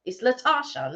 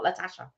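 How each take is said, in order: First: "Latasha" with long "ah", like "La-tar-sha"; corrected pronunciation. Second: "Latasha" with short "a" as in "cat"; rejected British pronunciation. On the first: Correcting co-host on the girl's name, "Latasha" as "La-tah-sha". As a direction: stretch the middle vowel of "Latasha" to "ah". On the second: Showing co-host what to avoid, "Latasha" as "La-tash-a". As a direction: rhyme the middle of "Latasha" with "cash". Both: Shown as a demonstration. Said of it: "not Latasha".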